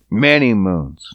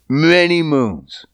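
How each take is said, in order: First: Breathy whispered echo. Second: Said in the usual way. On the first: Real, not acted. Repeated whisper.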